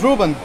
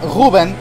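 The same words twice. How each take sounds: First: The name is said with English sounds. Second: The name is said with Portuguese sounds.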